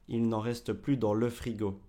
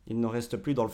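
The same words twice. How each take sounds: First: The E in 'le' is clearly pronounced. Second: The E in 'le' is dropped. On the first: "Au lieu de" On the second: "quand on parle très rapidement, on ne dit même pas le E ici"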